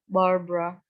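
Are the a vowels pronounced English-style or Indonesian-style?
English-style. The a vowels sound reduced, English-style. The speaker calls it right. "Ini nama orang, Barbara"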